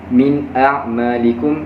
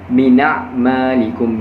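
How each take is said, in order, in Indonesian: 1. Hamzah memisahkan kedua kata. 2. Kedua kata menyambung tanpa hamzah.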